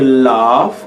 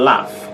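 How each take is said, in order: First: The vowel is long and drawn out. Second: The vowel is short and clipped. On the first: The speaker calls it right. "You say laugh" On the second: The speaker calls it wrong. "and not laugh"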